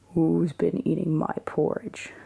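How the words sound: It is said in Papa Bear's big, grumpy voice.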